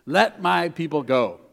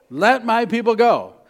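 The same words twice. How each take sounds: First: Said in the usual way. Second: A louder, higher call to let them go; bold demand. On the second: Acted. Moses demanding his people's release from Pharaoh, loud. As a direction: command it like a prophet.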